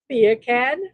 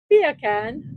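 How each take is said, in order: First: Said in the usual way. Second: "Beer can" with a British accent, no r sound. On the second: Shown as a demonstration. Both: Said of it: "Say beer can with a British accent".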